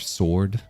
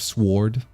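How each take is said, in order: First: The W is silent, said the usual way. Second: The W is pronounced and emphasized.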